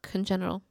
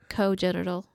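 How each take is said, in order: First: The first syllable ends with an n sound. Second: The first vowel is long with no n sound. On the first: The speaker calls it wrong. "not congenital" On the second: The speaker calls it right. "It's a long O"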